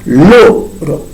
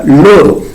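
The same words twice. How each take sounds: First: "loro" split, long stressed "lo", then "ro"; stress shown by syllables. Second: Said in the usual way. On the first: Shown as a demonstration. Teacher counting syllables from the right, "loro" split with stressed "lo". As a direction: lean hard on "lo" in "loro". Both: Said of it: "en la segunda sílaba".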